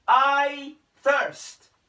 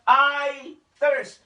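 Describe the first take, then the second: First: Louder, higher I thirst, stretched on I; crying out. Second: Louder, higher I thirst in a changed, strained voice; parched cry. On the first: Preacher voicing Jesus crying from the cross, louder plea. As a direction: call out the thirst. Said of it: "sumigaw po si Jesus". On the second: Preacher voicing Jesus again, a more parched, strained cry. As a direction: let the thirst crack through. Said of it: "Sabi niya". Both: Retold or imitated.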